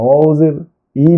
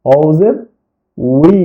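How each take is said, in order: First: Bare "ই" with the w sound missing; mistaken waw pronunciation. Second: "উই" begun with rounded lips as wi; correct waw pronunciation. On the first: Teacher showing learners their usual slip, unrounded "ই" for wi. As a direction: say "ই" without rounding the lips. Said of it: "আমরা অনেক সময় বলতে পারি না". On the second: Teacher correcting the learners' slip, lip-rounded "উই". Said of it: "ঠোঁট গোল করে". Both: Shown as a demonstration.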